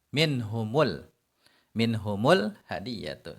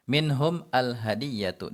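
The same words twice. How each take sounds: First: Minhumul said with a u linking into hadiyatu; damma linking. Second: Minhum al hadiyatu said slowly, minhum kept apart; slow separate reading. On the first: Teacher shows the pronoun exception linked. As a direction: join minhum with a u sound. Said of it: "Kalau mau kita baca bersambung". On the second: Teacher gives the original unlinked phrase. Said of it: "Awalnya minhum". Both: Shown as a demonstration.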